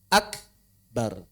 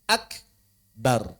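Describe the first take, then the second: Both takes have the same delivery.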